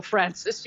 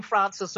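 First: "Francis" said as Fran-sis; short a Francis. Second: "Francis" said as Frahn-sis; long a Francis. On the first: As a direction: flatten the first vowel of "Francis". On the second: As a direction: open the first vowel of "Francis" to ah. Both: Shown as a demonstration. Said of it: "the two vowels in that".

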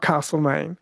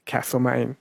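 First: Castlemaine with a long broad a, like CAHST-le-maine; wrong Castlemaine. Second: Castlemaine with a short flat a, as in cat; correct Castlemaine. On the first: Host correcting a caller's word, saying Castlemaine with a broad a. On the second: Host on air giving the proper Castlemaine with a short a. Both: Shown as a demonstration. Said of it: "Not Castlemaine".

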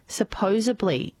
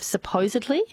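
First: Supposedly said as "suh-POH-zuh-blee"; mispronounced supposedly. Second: Said in the usual way. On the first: Shown as a demonstration. Host reading listener's example, supposedly as "supposably". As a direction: swap the "-edly" of supposedly for "-ably". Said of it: "Mispronounced words". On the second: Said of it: "instead of supposedly".

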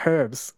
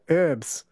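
First: "herbs" with a clear breathed H at the start; sounded H. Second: "herbs" said American-style, URBS with no H; silent H. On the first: Shown as a demonstration. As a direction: say "herbs" as HURBS. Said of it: "there is clearly an H". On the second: Retold or imitated. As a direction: drop the H from "herbs". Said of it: "Americans say herbs for herbs".

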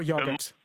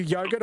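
First: "yogurt" said as YOG-urt; short-O yogurt. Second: "yogurt" said as YOH-gurt; long-O yogurt. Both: Shown as a demonstration. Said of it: "are you yogurt or yogurt".

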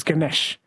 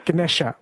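First: "Ganesh" ending on the sh; final A deleted. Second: "Ganesha" ending in a schwa; final A kept. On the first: Host comparing regional forms, Ganesh with A deleted. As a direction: say "Ganesh" in two syllables, no final vowel. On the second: Host comparing regional forms, Ganesha with final A kept. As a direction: say "Ganesha" in three syllables, uh at the end. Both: Shown as a demonstration. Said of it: "they delete the A's".

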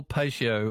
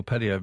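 First: "patio" said as PAY-shee-oh; long ay and sh in "patio"; pay-shio pronunciation. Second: "patio" said as PAT-ee-oh; short a and a t in "patio"; patty-oh pronunciation. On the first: Radio host giving both versions from a letter, "patio" as PAY-shee-oh. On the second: Radio host giving both versions from a letter, "patio" as PAT-ee-oh. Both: Shown as a demonstration. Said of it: "is it a patio or patio?".

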